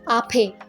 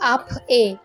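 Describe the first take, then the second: First: The consonant runs straight into the vowel. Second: The vowel is said separately after a break. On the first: The speaker calls it right. "Vowel के साथ जाके वो हो जाएगा" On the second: The speaker calls it wrong. "ऐसे प्रोनाउंस नहीं होगा"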